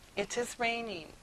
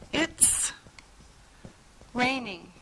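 First: The words 'it is' are said in full. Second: The words 'it is' are contracted to 'it's'.

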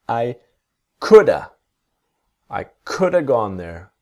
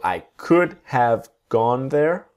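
First: "Could have" is reduced to "coulda". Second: "Could have" is said with a full "have". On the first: "What's next?" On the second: "the word have is slowly getting smaller"

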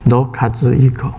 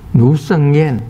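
First: The name is said in Japanese. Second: The name is said in Mandarin.

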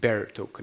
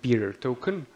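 First: The first syllable sounds like the word bear. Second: The first syllable does not sound like bear. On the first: The speaker calls it right. "it's pronounced bearer token" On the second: The speaker calls it wrong. "not bearer token"

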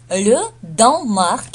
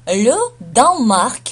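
No difference in how they are said.

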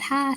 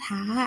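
First: The syllable has a falling tone. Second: The syllable has a high tone. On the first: "แต่เสียงจะเป็นเสียงโทนะคะ" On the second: "แต่จะเป็นเสียงตรีนะคะ"

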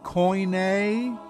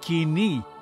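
First: The word is pronounced koine. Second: The word is pronounced kini. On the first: The speaker calls it wrong. "not koine" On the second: The speaker calls it right. "Kini, kini, not koine or kune"

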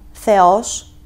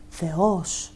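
First: The final syllable is said with raised pitch. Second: The final syllable is said with lowered pitch. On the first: The speaker calls it wrong. "που λέμε σήμερα, γιατί είναι σαν να βάζω οξία" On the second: The speaker calls it right. "Δηλαδή να κατεβάσω σαν βάρος"

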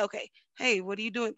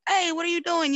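First: It sounds calm and patient. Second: It sounds frustrated, like yelling.

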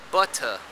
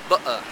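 First: The middle T is a clear, released t. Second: The middle T is a glottal stop. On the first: This is the BBC English pronunciation. "In BBC English, you would say butter" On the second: This is the London English pronunciation. "in London English, you would say butter, meaning that you would glottalize this T"

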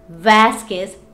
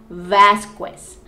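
First: The U after the Q is silent. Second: The U after the Q is pronounced. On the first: The speaker calls it right. "it's Vasquez" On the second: The speaker calls it wrong. "not Vasquez. We don't pronounce the letter U"

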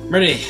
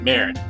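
First: The word ends with an added 'ee' vowel. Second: The word ends on a consonant, no added vowel. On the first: The speaker calls it wrong. "I'm just gonna go with Murdy" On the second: The speaker calls it right. "it's pronounced Murd"

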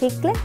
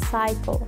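First: The first vowel sounds like a short ee. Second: The first vowel sounds like eye. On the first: The speaker calls it wrong. "no digo cicle" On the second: The speaker calls it right. "sino que diremos cycle"

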